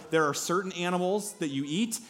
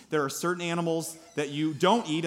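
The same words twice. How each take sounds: First: "eat" lifted at the end; stress on EAT. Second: "don't" punched, falling close; stress on DON'T. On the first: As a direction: land on "eat" with a rising tune. Contrasts eat with don't eat. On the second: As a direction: hit the word "don't", then let it fall. Contrasts don't eat with eat. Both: Shown as a demonstration.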